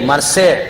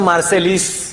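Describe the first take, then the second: First: It ends on a vowel with no 's'. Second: It ends with an 'l' and 's' sound. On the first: The speaker calls it right. "पण मार्सेलिस नाही येते, मार्से" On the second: The speaker calls it wrong. "स्पेलिंगचा इंग्लिश उच्चार होतो मार्सेलिस, पण मार्सेलिस नाही"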